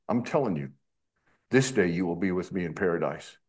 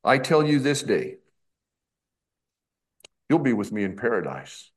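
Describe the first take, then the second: First: "I'm telling you", pause, then "this day you will be with me in paradise" in one lower run; pause before THIS DAY. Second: "I tell you THIS DAY", long pause, then "you'll be with me in paradise"; group "this day" with "I tell you", voice falling after it. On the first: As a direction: break after "you" and join "this day" to what follows. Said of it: "But we punctuate it this way". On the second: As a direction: break the sentence firmly after "day". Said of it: "They punctuate it this way". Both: Shown as a demonstration.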